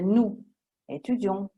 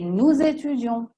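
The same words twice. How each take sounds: First: Nous and étudions are said without linking. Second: A z sound links nous to étudions. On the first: The speaker calls it wrong. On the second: The speaker calls it right.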